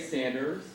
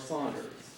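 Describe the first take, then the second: First: The first vowel sounds like the vowel in 'cat'. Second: The first vowel sounds like the vowel in 'caught'. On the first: The speaker calls it right. "the correct pronunciation is Sanders" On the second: The speaker calls it wrong. "The mispronunciation"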